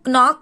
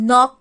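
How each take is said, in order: First: The starting K sound is pronounced. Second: The starting K sound is silent. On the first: The speaker calls it wrong. "इसको हम नॉक नहीं बोलेंगे" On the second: The speaker calls it right. "के silent है, इसको हम नॉक बोलेंगे"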